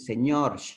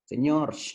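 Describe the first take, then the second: First: The final r is a hissing sound. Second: The same.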